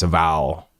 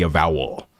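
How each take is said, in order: First: "vowel" squashed to one syllable with a broad ah, like "val"; low Texan "vowel" with the second syllable swallowed; lazy Texas vowel. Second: Said in the usual way. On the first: Shown as a demonstration. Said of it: "It needs to have an ah in it". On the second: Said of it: "picking the laziest representation of any vowel".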